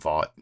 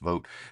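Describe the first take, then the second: First: The name does not sound like 'vote'. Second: The name sounds like the word 'vote'. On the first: It echoes the evil corporation in a TV show. "I like to call him Vought" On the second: It is the name's actual pronunciation. "I believe it's pronounced Vote"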